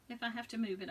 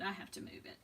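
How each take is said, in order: First: Said in the usual way. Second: Repeated under the breath in a whisper. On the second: Real, not acted. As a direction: echo it to yourself in a whisper.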